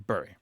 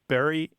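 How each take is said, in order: First: The vowel is long, as in 'fury'. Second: The vowel is short, as in 'berry'. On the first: The pronunciation follows the spelling. "follow the more typical pronunciation of the U" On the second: This is the usual pronunciation. "They say them identically"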